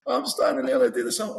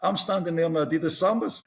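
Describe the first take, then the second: First: Pitched high in disbelief; laughing disbelief at himself; incredulous. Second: Said in the usual way. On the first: Real, not acted. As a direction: stress Sambas, much higher, amazed. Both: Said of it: "repeated with rising disbelief".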